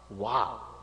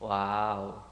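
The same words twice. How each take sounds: First: It sounds genuinely impressed and appreciative. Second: It sounds flat, uninterested and distasteful. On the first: The listener finds it brilliant. "So here it is a good wow" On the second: The listener does not find it interesting. "That is an indifferent, a totally distasteful wow"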